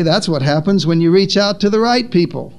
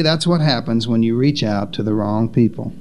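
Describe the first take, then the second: First: Approving answer. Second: Low, falling, disapproving quote; low-pitched mild disapproval of reaching "wrong" people; disapproving critics. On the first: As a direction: lift the pitch steadily into "right people". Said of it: "Jesus would say". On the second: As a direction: say it as a dismissive verdict, stress on "wrong". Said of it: "Some would say". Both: Acted.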